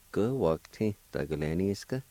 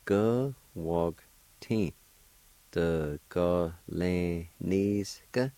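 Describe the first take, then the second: First: "Go, wog, tin. The, go, lan, ni, ska" run together as words; whole-word demo of "Go, wog, tin. The, go, lan, ni, ska"; joined-up pronunciation. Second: "go, wog, tin. The, go, lan, ni, ska" spaced out; careful teacher's breakdown of "go, wog, tin. The, go, lan, ni, ska"; syllable-by-syllable pronunciation. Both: Shown as a demonstration. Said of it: "And together".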